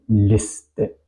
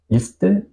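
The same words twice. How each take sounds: First: Liste said slowly with the I as taught; slow, careful liste with separated syllables; corrected vowel. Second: Liste mispronounced with the wrong I length; wrong vowel length. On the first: Teacher says how it should be, corrected vowel. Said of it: "digo liste". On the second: Teacher shows what not to say, wrong vowel. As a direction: liste as the faulty take, rising at the end. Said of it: "No digo liste". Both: Shown as a demonstration.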